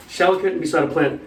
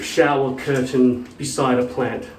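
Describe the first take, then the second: First: "Shower curtain beside a plant" said quickly as one word; run together. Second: Said in the usual way. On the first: Shown as a demonstration. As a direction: join "Shower curtain beside a plant" into a single compound, no gaps. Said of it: "That becomes one word in German". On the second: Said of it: "I think they just go, "All right".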